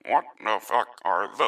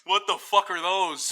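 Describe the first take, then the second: First: It is said in a mechanical robot voice. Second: It is said in a natural human voice.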